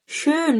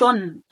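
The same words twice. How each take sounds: First: Schön with a rounded ö, drawn out; correct vowel in schön. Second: Schon with a plain o, no umlaut; wrong vowel in schon. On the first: (نطق schön بحرف ö واضح) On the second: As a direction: say schon with an o instead of ö. (نطق schon بحرف o من غير أوملاوت) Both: Shown as a demonstration. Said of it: "schön مش schon".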